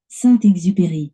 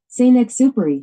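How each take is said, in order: First: The name is said with a French pronunciation. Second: The name is said with an English pronunciation. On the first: "and then French"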